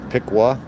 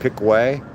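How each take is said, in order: First: The last syllable is a reduced 'wuh' sound. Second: The last syllable is a full 'way' sound. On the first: This is how the name is really said. The speaker calls it right. "but it's Piqua" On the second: This is how some other people say it. The speaker calls it wrong. "Some people pronounce it Pickway"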